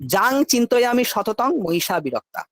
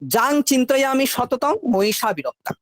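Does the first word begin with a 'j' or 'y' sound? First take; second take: j sound; j sound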